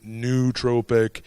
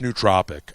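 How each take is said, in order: First: The first syllable sounds like 'new'. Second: The first syllable does not sound like 'new'. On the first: "Some people call it nootropic, new" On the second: "but it's nootropic ultimately"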